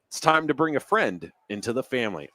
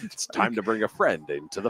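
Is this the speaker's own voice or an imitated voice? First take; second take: own voice; imitated voice. First: It is said in the speaker's normal voice. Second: It imitates the voice of the commercial's announcer.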